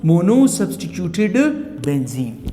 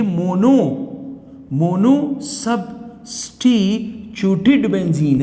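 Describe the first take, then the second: First: Said in the usual way. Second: Each syllable stretched out slowly; slow classroom dictation; slow and spelled out. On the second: Shown as a demonstration. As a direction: drag the long name out so students catch it. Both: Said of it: "इसे क्या कहते हैं हम?".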